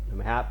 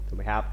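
No difference in how they are said.

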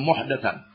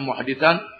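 First: The vowel after the d is a. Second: The vowel after the d is i. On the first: It means protecting religious innovations that contradict the sunnah. "boleh dibaca dengan muhdatan" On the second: It means sheltering a wrongdoer who deserves punishment. "Boleh dibaca dengan muhditan"

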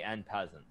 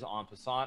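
First: The second word sounds like English 'peasant'. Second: The second word sounds like French 'passant'. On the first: The speaker calls it wrong. "he actually did say N peasant" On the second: The speaker calls it right. "I'm very familiar with the correct pronunciation"

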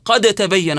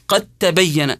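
First: The d sound is pronounced separately before the t. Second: The d sound merges fully into the following t. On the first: The speaker calls it wrong. "الخطأ الشائع في هذه الآية عند الناس" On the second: The speaker calls it right. "ندغم الدال داخل إيش؟ داخل التاء، نقرأه هكذا"

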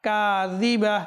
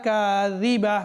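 The two takes are said the same way.

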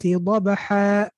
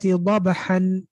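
First: The word ends in a long 'a' sound. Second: The word ends in an 'an' sound. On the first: The reciter stops at the end of the verse. "What did I pronounce?" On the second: The word is read as written, without stopping. "What's written is"

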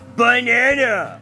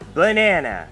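First: It is said with more emotion. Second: It is said flatly, without emotion.

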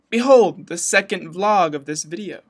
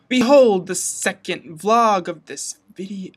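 First: It is said more quickly. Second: It is said slowly.

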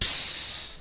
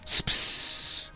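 First: The sound has no S before the P. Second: The sound has an S before the P. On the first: The speaker calls it wrong. "it's not just pss" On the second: The speaker calls it right. "it has, like, an S before the P"

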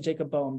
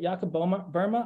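First: The surname is said as read in English. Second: The surname is said the German way. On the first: This is how it looks when read from the spelling. "I just say Jacob Bohm because that's how I read it" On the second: This is believed to be the proper pronunciation. "I think that's how you say it"

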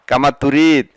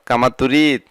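No difference in how they are said.

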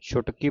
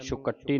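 First: The consonants are said lightly, with no doubling. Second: A consonant is said tightly, held and doubled. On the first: The speaker calls it right. "ਪੋਲਾ ਪੜ੍ਹਨਾ। ਇਹਨੂੰ ਕੱਸ ਕੇ ਨਹੀਂ ਪੜ੍ਹਨਾ" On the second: The speaker calls it wrong. "ਛੁਕੱਟੀ ਨਹੀਂ ਪੜ੍ਹਨਾ"

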